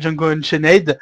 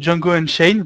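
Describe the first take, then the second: First: The final 'ed' is pronounced aloud. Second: The final 'ed' is silent. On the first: The speaker calls it wrong. "vous dites pas Django Unchained" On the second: The speaker calls it right. "Vous dites euh, Django Unchained"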